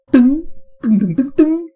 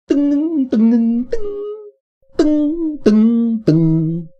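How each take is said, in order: First: High, loud, ringing ding sounds; high bright dings. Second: High, loud ringing dings, wavering; high vibrating dings. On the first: Streamer imitating a bright focused drum ring, high and loud. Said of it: "I think ding sounds focused, strong and bright also". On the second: Streamer imitating a vibrating bell tone, high and loud. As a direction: ring out each ding high and vibrating. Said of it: "but vibrating". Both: Shown as a demonstration.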